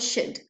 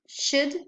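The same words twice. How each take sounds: First: It is a weak form typical of very rapid speech. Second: It is a weak form used in ordinary speech. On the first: "The second one is one of the characteristics of very rapid speech" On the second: "the weak forms are should or should"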